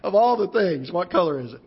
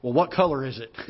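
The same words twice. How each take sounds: First: Incredulous echo. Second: Light, matter-of-fact mother's voice; casual question. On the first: Son echoing his mother's question, incredulous and amused. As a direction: repeat her question in disbelief. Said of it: "And I thought". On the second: Mother suddenly calm on the phone, asking it lightly. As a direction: ask it offhand, as if nothing happened. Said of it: "the first words out of her mouth is". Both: Retold or imitated.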